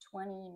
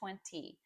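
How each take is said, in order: First: The middle t sound is dropped entirely. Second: The middle t sound is clearly pronounced. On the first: "No t in there" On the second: "You can say twenty"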